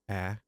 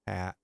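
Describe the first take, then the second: Both takes have the same delivery.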